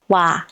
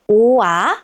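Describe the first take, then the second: First: The vowels glide together into one short syllable. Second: Two separate vowels are said as two syllables. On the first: The speaker calls it right. "it's wa. It should be the same length as other vowels" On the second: The speaker calls it wrong. "not U-A"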